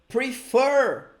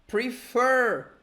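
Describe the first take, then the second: The two takes are said the same way.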